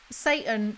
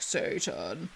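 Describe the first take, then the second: First: Said in the usual way. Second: Satan said low and soft, drawn out as SAY-tahn; imitated clip voice. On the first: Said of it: "Satan is like, "Satan". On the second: Reader mimics the clip he will insert, low "Satan". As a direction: drop low on "Satan" as a quoted impression. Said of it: "Satan is like".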